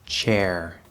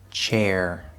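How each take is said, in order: First: The vowel is a plain 'eh' before 'er'. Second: The vowel glides from 'ay' toward 'er'. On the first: "then I will pronounce it with the third vowel sound eh" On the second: "first pronounce the word with the diphthong a"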